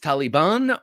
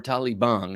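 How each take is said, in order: First: The last syllable sounds like 'ban'. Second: The last syllable sounds like 'bong'. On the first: "it sounds less like Taliban" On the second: "I like to say bong"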